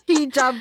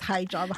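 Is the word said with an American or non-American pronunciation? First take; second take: non-American; American. First: The word is said without an American pronunciation. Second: The word is said with an American pronunciation. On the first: The speaker calls it right. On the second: The speaker calls it wrong.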